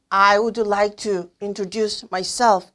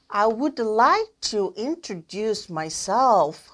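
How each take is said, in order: First: The sentence is read stiffly on a flat pitch. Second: The sentence is read with a lively, wavy pitch. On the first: The speaker calls it wrong. "이렇게 딱딱하게 읽으시는 분 요즘엔 없죠?" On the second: The speaker calls it right. "이렇게 웨이브 치셔야 되고요"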